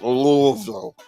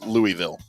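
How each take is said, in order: First: It is said the way locals say it. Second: It is said the way outsiders say it. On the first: The speaker calls it wrong. "when I say it like they say it" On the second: The speaker calls it right. "I'm not saying it like that anymore. It's Louisville"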